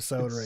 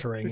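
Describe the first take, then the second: First: It is said with a British pronunciation. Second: It is said with an American pronunciation.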